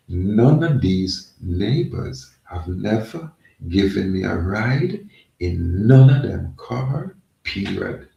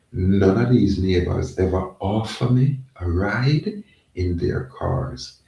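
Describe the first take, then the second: First: Slow, deliberate restatement, each phrase set apart; emphatic repeat. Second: Said in the usual way. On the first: Real, not acted. Complaining that no neighbors ever offered a ride, slow emphatic repeat. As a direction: spell it out slowly, leaning hard on "none" and "ride". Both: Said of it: "Let me repeat that".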